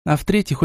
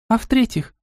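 First: Said in the usual way. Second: "А в-третьих" pitched high as a question; eager asking tune on "А в-третьих". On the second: A narrator's reading. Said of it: "спросила Настя".

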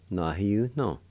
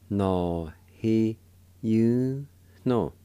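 First: Said in the usual way. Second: Slow, emphatic syllables with gaps between; syllable-by-syllable demo. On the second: Shown as a demonstration. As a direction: give each syllable its own beat. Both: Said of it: "It's pronounced like this".

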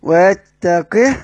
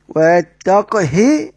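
First: ويتقه slow with the final ha silent and short; sukun on the ha. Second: ويتقه slow, qaf still, short hi at the end; sukun on the qaf. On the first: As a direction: stop dead on the ha of ويتقه. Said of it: "بالإسكان". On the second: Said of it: "سكون القاف وكسر". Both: Shown as a demonstration.

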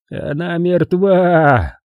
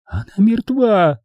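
First: High, drawn-out, hopeless statement; resigned certainty, stretched out long. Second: High, drawn-out, strained woman's cry; high strained insistence; hoarse croak. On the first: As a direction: say it very slowly, certain and without hope. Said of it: "с безнадёжной уверенностью в голосе". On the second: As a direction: force it out slowly in a high voice. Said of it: "прохрипела Эдвина". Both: A narrator's reading.

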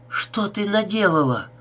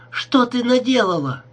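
First: High shocked cry at Gerda; yelling in horror at what she did. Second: Repeated cry, higher and louder; screaming it again in horror. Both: A narrator's reading. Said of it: "крикнула она Герде".

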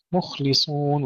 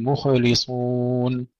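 First: "مخلصون" with a still kha, breath running through it; soft flowing kha. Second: Slow "مخلصون" with an extra vowel echo after kha; mistaken bounced kha. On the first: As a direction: let the kha of "مخلصون" flow without bouncing. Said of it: "وإنما فيها همس ورخاوة". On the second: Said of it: "لا نقلقل الخاء". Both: Shown as a demonstration.

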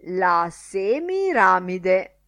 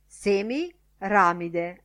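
First: SEMIRAMIDE drawn out slow and loud; "Semiramide" as one swelling, triumphant word; self-satisfied announcement. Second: SEMIRAMIDE split slowly into SEMI, pause, RAMIDE; "Semiramide" spelt out in two separate halves; pun pointed out. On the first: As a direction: announce "Semiramide" grandly, stretching it syllable by syllable. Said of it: "annunciò tutto soddisfatto". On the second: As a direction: break "Semiramide" after "Semi" to show the pun. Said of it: "Vedete il punto?". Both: A narrator's reading.

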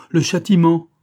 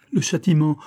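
First: High, loud, tormented exclamation; loud cry of damnation; anguished outcry. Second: High, pained exclamation; tormented lament; anguished cry. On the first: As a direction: wail it out at full pain. Louder repeat of the cry. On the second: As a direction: cry out at the punishment. First cry of punishment. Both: A narrator's reading.

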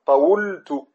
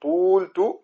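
First: طولت said with the original waw, slow and drawn; original form demo. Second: طولت said again slowly, the waw drawn out; original form demo. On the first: Teacher drawing out طولت for students. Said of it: "أصلها". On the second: Teacher repeating طولت slowly for students. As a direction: drag طولت out so each sound is heard. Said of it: "طولت مثلًا". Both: Shown as a demonstration.

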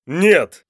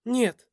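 First: Loud, high shout of refusal; yelled. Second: Second parent's cry. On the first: Father refuses his son's sacrifice, yelling. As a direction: shout it out forcefully. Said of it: "В один голос заорали". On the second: Mother echoes the father's refusal, high alarmed cry. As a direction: echo the refusal much higher. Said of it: "заорали оба родителя". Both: A narrator's reading.

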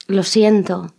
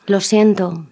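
Both takes have the same delivery.

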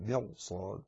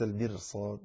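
First: Soft, low "مرصاد" with a heavy ra. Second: "المرصاد" with a thin, light ra; soft, low "المرصاد", ر kept light; wrong light ra. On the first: Teacher correcting the reading, "مرصاد" with full heavy ra. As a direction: say "مرصاد" quietly, thickening the ر. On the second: Teacher showing the wrong reading, "المرصاد" with light ra. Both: Shown as a demonstration. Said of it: "ليس المرصاد".

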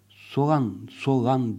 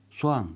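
First: Soğan with the ğ sounded out; soğan with audible ğ; soft g pronounced. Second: Soğan said as soan, ğ silent; soft g dropped. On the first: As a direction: say Soğan with a voiced ğ in the middle. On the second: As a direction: glide over the ğ in Soğan. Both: Shown as a demonstration.

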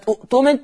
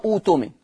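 First: أؤتمن as u'-tumin with a glottal catch; short u then a stop in أؤتمن; hamza pronounced. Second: أوتمن as uu-tumin, long oo with no catch; smooth demo of أوتمن with a long first vowel; hamza turned to waw. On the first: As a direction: cite أؤتمن keeping the hamza. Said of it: "تقرأ أوتمن". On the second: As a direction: lengthen the opening u of أوتمن. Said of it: "إذا بدأ بها مضمومة". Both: Shown as a demonstration.

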